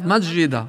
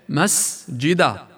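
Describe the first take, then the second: First: The s sound is blended into the following j. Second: The s sound is a clear voiceless hiss. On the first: The speaker calls it wrong. "يخلط حرف الهمس السين مع الجيم ... وأين السين؟" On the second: The speaker calls it right. "تأنى عليها، تلفظ سين"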